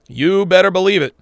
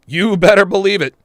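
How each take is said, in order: Both takes have the same delivery.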